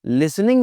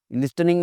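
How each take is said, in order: First: "लिसनिंग" with S straight into N; silent T. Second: "लिस्टनिंग" with a T after S; T sounded. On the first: Shown as a demonstration. Teacher modelling the student's sentence, T silent. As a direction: drop the T, "लिसनिंग". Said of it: "मुझे क्या कहना चाहिए". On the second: Retold or imitated. Student telling teacher of a problem, T sounded. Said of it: "टी की आवाज़ को वो".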